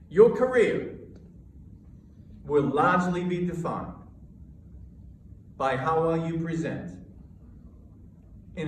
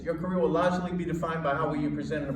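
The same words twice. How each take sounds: First: It is spoken in calm, measured chunks. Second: It is spoken fast with too much energy. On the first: The speaker calls it right. "with measured energy" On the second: The speaker calls it wrong. "I didn't say it like this. Too much, too much"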